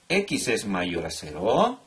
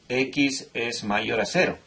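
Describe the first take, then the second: First: The voice rises at the end like a question. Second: The voice falls at the end like a statement. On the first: It asks whether the condition holds. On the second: It states a fact.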